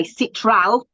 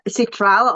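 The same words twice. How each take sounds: First: Citral with a short i and stressed first syllable, SIT-ral; citral, British pronunciation. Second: Citral said sit-RAL with an open final a; citral, Australian pronunciation. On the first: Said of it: "I'm gonna say citral". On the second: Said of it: "I would say". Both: Shown as a demonstration.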